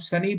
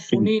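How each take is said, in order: First: The first vowel sounds like 'uh' in 'but'. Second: The first vowel sounds like 'oo' in 'put'. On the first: The speaker calls it right. "हम सनी बोलते हैं" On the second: The speaker calls it wrong. "सुनी नहीं बोलते"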